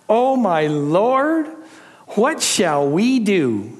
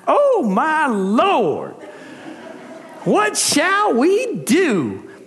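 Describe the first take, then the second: First: It is read in the speaker's ordinary accent. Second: It is read in a Southern American accent.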